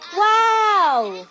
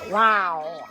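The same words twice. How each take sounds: First: It is said in a happy way. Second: It is said in an angry way.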